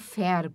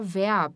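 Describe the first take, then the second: First: The word begins with a voiceless F sound. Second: The word begins with a voiced V sound. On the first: The speaker calls it wrong. "e não verb" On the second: The speaker calls it right. "a gente fala verb"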